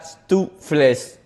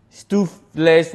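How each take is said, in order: First: Slowly broken-up "stoofles"; rejected pronunciation. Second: Slow, careful "stoofles"; first attempted pronunciation. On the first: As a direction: say "stoofles" slowly, split after the first syllable. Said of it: "I looked up how to say it". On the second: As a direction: sound out "stoofles" slowly, piece by piece. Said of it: "totally forgot how to say it". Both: Shown as a demonstration.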